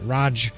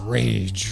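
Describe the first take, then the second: First: The name is said as 'rahj'. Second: The name is said as 'rage'. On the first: The speaker calls it wrong. "he hates it when people call him Raj" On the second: The speaker calls it right. "His name is Rage"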